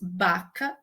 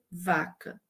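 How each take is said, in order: First: The word begins with a B sound. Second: The word begins with a V sound. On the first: A young child's substituted form. "produz baca" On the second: The standard adult form. "ao invés de vaca"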